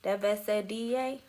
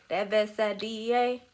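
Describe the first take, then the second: No difference in how they are said.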